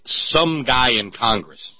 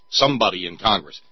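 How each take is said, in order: First: Drawn out and slow, dim-witted Gump voice; slow Forrest Gump drawl. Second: Said in the usual way. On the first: Retold or imitated. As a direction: stretch every word like Forrest Gump. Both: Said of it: "Notice how he says".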